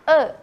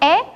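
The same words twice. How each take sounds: First: The vowel is pronounced the Sundanese way. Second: The vowel is pronounced the Indonesian way. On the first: "dalam bahasa Sunda kalian membaca ini dengan E" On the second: "Kalau dalam bahasa Indonesia kalian menyebutkan ini E"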